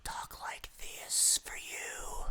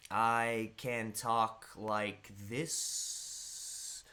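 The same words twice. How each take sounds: First: Slow breathy whisper right into the mic; ASMR whisper. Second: Drawn-out slow talk. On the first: Streamer teasing chat with an ASMR-style whisper. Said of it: "if you want an A S M R channel". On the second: Streamer showing chat a very slow drawn-out voice. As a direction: draw it out like taffy. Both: Shown as a demonstration.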